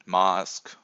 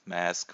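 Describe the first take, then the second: First: Mask with a long open "ah"; Mask, rhyming loosely with "bahsk", louder; broad-A Mask. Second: Mask with the short "a" of "cat"; flat-A Mask. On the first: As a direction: say Mask as "mahsk". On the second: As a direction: say Mask to rhyme with "task" in American English. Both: Shown as a demonstration. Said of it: "whatever you wanna call it".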